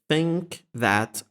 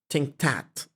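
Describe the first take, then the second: First: The words start with dental th sounds. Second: The words start with stop t sounds. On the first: "Initial dental consonant" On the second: "pronounced as alveolar stops like"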